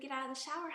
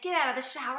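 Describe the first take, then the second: First: The voice sounds calm and gentle. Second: The voice sounds harsh and angry. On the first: The speaker calls it right. "See the difference in the tone of voice" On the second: The speaker calls it wrong. "Notice my tone of voice. Not very pleasant"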